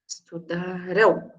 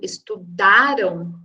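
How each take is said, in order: First: The stress is on the last syllable. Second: The stress is on the second-to-last syllable. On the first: They will study. "eu tenho a tônica na última sílaba" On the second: They studied. "a tônica está no dá, então está na penúltima sílaba"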